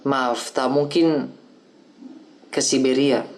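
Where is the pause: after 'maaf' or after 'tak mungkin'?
after mungkin. The pause comes after the third word. There is no pardon; the person is exiled. "maknanya adalah keputusan hukuman pembuangan ke Siberia"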